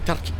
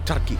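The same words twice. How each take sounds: No difference in how they are said.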